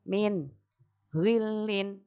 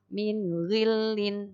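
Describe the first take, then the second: First: There is a breath pause between the words. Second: The words run together in one breath. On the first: The speaker calls it wrong. "ambil nafas dulu. Itu enggak boleh ya" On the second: The speaker calls it right. "itu satu nafas"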